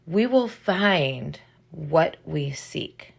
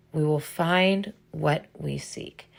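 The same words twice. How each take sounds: First: "will" leaned on, slow and deliberate; stress on WILL. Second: "find" leaned on, slow and deliberate; stress on FIND. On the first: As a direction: stress the word "will", unhurried. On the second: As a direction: stress the word "find", unhurried. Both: Shown as a demonstration.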